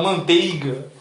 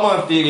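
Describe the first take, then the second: First: MANTEIGA drawn out with a clear "ei"; posh-guy pronunciation. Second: MANTEIGA reduced to "mantega"; everyday pronunciation. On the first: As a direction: say "man-TEI-ga" carefully, like a preppy guy. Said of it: "o cara é Maurício". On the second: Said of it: "ele não fala manteiga". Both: Shown as a demonstration.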